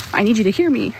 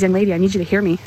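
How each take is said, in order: First: Hear pushed up and held, falling at the end; insistent stress on hear. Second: Said in the usual way. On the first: Retold or imitated. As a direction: insist firmly on the word hear. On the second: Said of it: "No, I need you to hear me".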